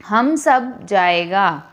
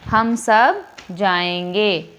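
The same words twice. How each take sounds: First: Slow, deliberate reading of हम सब जाएगा; wrong sentence demo. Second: Slow, clear reading of हम सब जाएंगे with a full -एंगे ending; correct sentence demo. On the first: Teacher shows students the wrong sentence, read slowly. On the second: Teacher gives students the corrected sentence, read slowly. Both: Shown as a demonstration. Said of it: "तो हम सब जाएगा नहीं".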